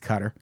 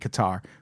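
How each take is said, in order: First: The name is said in its current pronunciation. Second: The name is said in its older pronunciation. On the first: This is how the name is pronounced now. "but it's Qatar" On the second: This is how the name was formerly pronounced. "It used to be Qatar"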